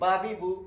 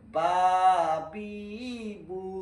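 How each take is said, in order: First: The vowels are short and said quickly. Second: The vowels are stretched out long and slow. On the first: The speaker calls it right. "তাড়াতাড়ি" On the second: The speaker calls it wrong. "এখানেও টানে পড়া যাবে না। ... এভাবে কেউ যদি বলে তাহলে পড়া সহি হবে না"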